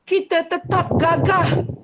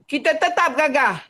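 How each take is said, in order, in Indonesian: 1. Suaranya lembut dan terkendali. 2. Suaranya kasar dan keras. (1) "dari proses pengeluaran yang sedah dibetulkan" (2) "Asalnya nombor satu"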